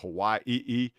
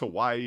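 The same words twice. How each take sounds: First: It has a catch before the last syllable. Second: It is said smoothly with no break.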